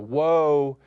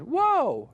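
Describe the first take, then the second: First: It is said at a normal, lower pitch. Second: It is said at a high pitch.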